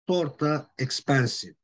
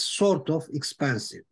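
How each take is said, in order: First: 'Sort of' is blended into one reduced word. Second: 'Sort of' is said as two full words. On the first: "Instead of saying sort of, they say sorta" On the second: "or it is sort of expensive"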